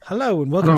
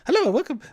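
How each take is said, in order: First: The voice is relaxed and calm. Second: The voice goes up high.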